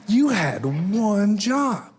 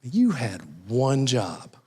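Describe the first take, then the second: First: High, very drawn-out mock reproach; groom's mother scolding. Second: Slow, deliberate mock reproach; groom's mother scolding. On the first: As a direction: stretch every word in a high motherly scolding. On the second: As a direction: play the exasperated mom, spacing out each word. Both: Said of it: "the mom of the groom's kinda going".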